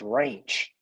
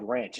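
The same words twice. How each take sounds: First: The word is said with a Southern drawl. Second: The word is said in a neutral accent. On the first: "the where I'm from, ... it's ranch" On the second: "it's not just called ranch"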